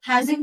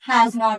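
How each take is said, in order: First: The two words are contracted into one word. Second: The two words are said separately and in full. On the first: "హ్యాజింట్ అని చెప్పొచ్చు" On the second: "హ్యాస్ నాట్ అని కూడా చెప్పొచ్చు"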